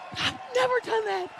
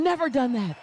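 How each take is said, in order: First: Excited shout. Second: Said in the usual way. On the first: Retold or imitated. Disbelief after record.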